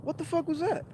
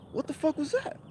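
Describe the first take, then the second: First: Very high, soft, rising bewilderment again; mock-stunned high-pitched echo; high bewildered. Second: Very high, soft, rising bewilderment; mock-stunned high-pitched question; high bewildered. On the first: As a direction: ask it once more, spooked. Repeated bafflement. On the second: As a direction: ask it, thoroughly spooked. Baffled after driver leaves.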